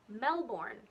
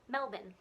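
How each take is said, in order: First: Every syllable is said fully and clearly. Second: The word is shortened, its ending reduced. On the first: The speaker calls it wrong. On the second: The speaker calls it right.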